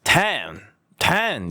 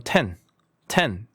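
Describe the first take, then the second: First: "ten" stretched to a wide "taaen"; mock overblown "ten"; exaggerated mispronunciation. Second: "ten" short with a plain "e"; unforced model "ten"; Korean-like simple vowel. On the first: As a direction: overdo the vowel in "ten". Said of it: "이게 아니라". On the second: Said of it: "그냥 한국말처럼". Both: Shown as a demonstration.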